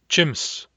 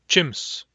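No difference in how they are said.

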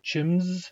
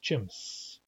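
First: The word ends with a buzzing z sound. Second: The word ends with a hissing s sound. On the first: The speaker calls it wrong. "Those of you with English accents may be tempted to pronounce it chims as if it ended with a Z" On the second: The speaker calls it right. "but it does not. It's chimps. S is an S is an S"

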